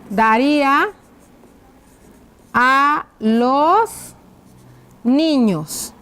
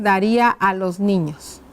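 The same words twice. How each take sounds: First: Drawn-out words, pauses between; writing-out dictation. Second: Said in the usual way. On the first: Shown as a demonstration. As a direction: dictate slowly as you write. Dictates while writing the question out. (dictado lento, con pausas)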